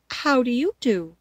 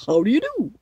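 First: Higher, politely returned greeting. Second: Loud, put-on scarecrow greeting; husky scarecrow. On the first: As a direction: return the courtesy as a polite girl. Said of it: "replied Dorothy politely". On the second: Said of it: "said the scarecrow in a rather husky voice". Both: A narrator's reading.

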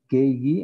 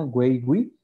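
First: "Gay, gui" con g de gato; G dura, U muda. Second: "güey, gui" con sonido gw en ambas; U sonora. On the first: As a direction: pronunciar "Gay, gui" sin sonido de u. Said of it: "en español". ("Gay, gui" como gue, gui) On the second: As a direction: hacer sonar la u en "güey, gui". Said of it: "sin necesidad de la diéresis". ("güey, gui" como güe, güi) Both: Shown as a demonstration.

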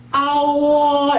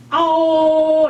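First: 아오 said plainly, the wrong way; flat Korean-style 아오. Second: 아오 said high and clearly gliding; high open 아 into 오; right ao. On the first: Teacher showing the wrong 아오 to avoid. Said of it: "이렇게 하는 게 아니고". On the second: Teacher showing the right Chinese 아오. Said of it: "이렇게 하시면 돼요". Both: Shown as a demonstration.

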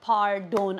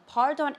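First: "Pardon" with a full round o in the second syllable; Turkish pronunciation. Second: "pardon" with a reduced, unstressed second vowel; English pronunciation. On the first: Teacher showing learners "Pardon" with its full Turkish o. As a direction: say "Pardon" the Turkish way, ending in a clear "don". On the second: Teacher comparing with English, "pardon" said the English way. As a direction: say "pardon" as in English, ending in "dən". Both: Shown as a demonstration. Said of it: "it is pronounced like pardon".

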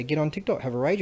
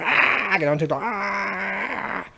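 First: Said in the usual way. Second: Higher, louder, slow drawn-out whine; whining parody of a TikTok ranter; mock whiny voice. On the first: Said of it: "And I say". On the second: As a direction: ham up a pouty complainer.

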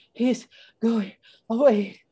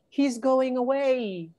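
First: High, breaking the words with panting breaths. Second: High, slow story-voice cry; panting. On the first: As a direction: gasp it word by word after running. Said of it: "Annie was panting". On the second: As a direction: call it out high and drawn out, barely panting. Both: A narrator's reading.

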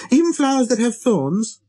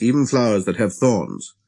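First: Put-on high child voice, rising question; little prince, questioning. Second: Said in the usual way. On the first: A narrator's reading. Little prince checking on flowers with thorns, questioning. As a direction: ask it high, pressing for an answer.

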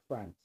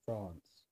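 First: "France" with a short flat a, as in "ant"; short-vowel France. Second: "France" with a long open "ah"; jaw-dropped France. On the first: Showing viewers how the word varies, short a in "France". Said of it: "it's supposed to be France". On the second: Showing viewers the word, jaw-dropped long "ah" in "France". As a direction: drop the jaw wide on the a of "France". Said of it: "jaw's, like, really dropping when I say France". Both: Shown as a demonstration.

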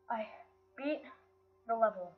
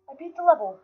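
First: Halting, a pause after each word; word-by-word disbelief. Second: High, loud cry of victory; triumphant exclamation. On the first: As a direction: let it sink in, word by word. Repeats the win word by word. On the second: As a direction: shout it in elated triumph. Celebrates beating the level. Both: Real, not acted.

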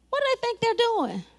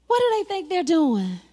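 First: Higher-pitched mock taunt. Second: Mild, measured mock taunt. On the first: Sanballat name-calling the builders, higher mock taunt. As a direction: pitch the question up in mild mockery. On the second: Sanballat name-calling the builders, mild mock taunt. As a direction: taunt lightly in a level voice. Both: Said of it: "they started name calling".

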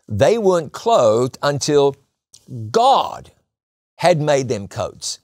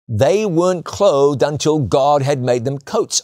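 First: God lifted and set apart by a pause before it; slow down and lean hard on "God", with a beat before it; stress on God. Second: Said in the usual way. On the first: Shown as a demonstration. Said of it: "shift the emphasis". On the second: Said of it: "Let me say that again".

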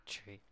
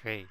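First: "tree" with a hard T, no th; three as tree. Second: Said in the usual way. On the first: Shown as a demonstration. Player correcting himself, showing the wrong "tree". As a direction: show the slip: "tree" for three. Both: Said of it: "not tree".

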